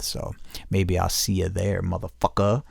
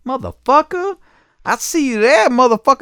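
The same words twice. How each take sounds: First: Said in the usual way. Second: Much higher, squeaky mock voice for the caller; mocking the angry caller. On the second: Mocking the caller who yelled about his kids, squealing high. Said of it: "this crazy motherfucker that called me".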